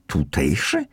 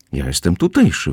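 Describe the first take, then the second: First: Mock-questioning with a sceptical rise; ironic. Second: Said in the usual way. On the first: Young man doubting the narrator's claim, ironic. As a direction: throw the word back with mild irony. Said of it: "ironizował młody człowiek". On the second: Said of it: "wyjaśniłem".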